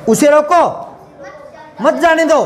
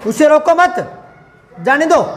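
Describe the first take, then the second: First: The pause comes right after 'roko'. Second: The pause comes right after 'mat'. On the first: Keep him seated here. "मैं यहां रुकूंगा एक बार, ये दो एक साथ बोलूंगा" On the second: Let him go. "ये तीन साथ बोलूंगा और ये दो एक साथ बोलूंगा"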